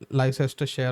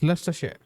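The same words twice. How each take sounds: First: Every written syllable of the name is pronounced. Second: The middle letters are skipped, shortening the name. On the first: The speaker calls it wrong. "it's written like it's called uh, Leicester Leicestershire or like uh, or like Leicestershire or something, but it's not" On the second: The speaker calls it right. "You just ignore the letters between the first syllable and the ester"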